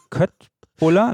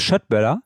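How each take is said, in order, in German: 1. Das Wort beginnt mit einem k-Laut. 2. Das Wort beginnt mit einem sh-Laut. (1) "Wird ja geschrieben Köttbuller" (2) "da ist das Schöttböller"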